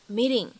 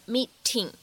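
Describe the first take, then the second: First: The t is a soft flap between t and d. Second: The t is a clear, full t sound. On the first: The speaker calls it right. "而需要读成meeting, meeting。……介乎于t 和d 之间的感觉" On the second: The speaker calls it wrong. "我们不用读成meeting"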